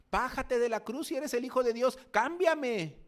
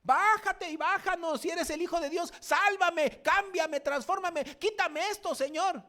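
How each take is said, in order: First: High, loud sneering demand from the cross; mocking thief. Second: Much higher, loud pleading demand in a put-on voice; demanding believer. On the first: Wicked thief on the cross taunting Jesus, loud mocking jeer. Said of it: "decía ese malhechor malvado". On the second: Believer on the cross ordering God to save him, high loud whine. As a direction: whine up at God like a spoiled child. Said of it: "¿cuál ha sido su actitud?".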